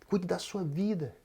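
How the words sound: It is said in a warm, caring tone.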